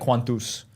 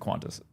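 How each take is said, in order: First: The name is said with Latin-style vowels. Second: The name is said with English-style vowels. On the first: "if you were saying Latin, it would be like quantus" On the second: "You can just say quantus"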